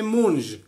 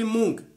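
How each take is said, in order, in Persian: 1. کلمه با صدای zh تمام میشه. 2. کلمه با صدای g تمام میشه. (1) "با او ژ نوشته میشه" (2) "پشتون مشرقی مونگ تلفظ میکنه"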